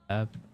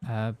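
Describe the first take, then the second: First: It is said with a clear H sound. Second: It is said without the H sound. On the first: "we emphasise the H generally in British English"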